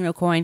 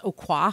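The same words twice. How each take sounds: First: The name is said with an English pronunciation. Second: The name is said with a French pronunciation. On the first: "I'm saying Aucoin because that's just what I always heard" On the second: "you can also pronounce it as Aucoin because it's a French name"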